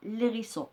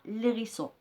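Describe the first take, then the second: First: The article's vowel is dropped and joined to the noun. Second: The same.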